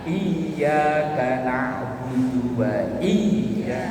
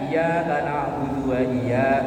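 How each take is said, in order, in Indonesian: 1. Bunyi y itu dobel dan ditahan panjang. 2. Bunyi y itu tunggal dan pendek. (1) "Yang bener kan iya, kayaknya itu ditahan" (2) "Kalau bacanya iya-nya eh tasdidnya nggak ada kan?"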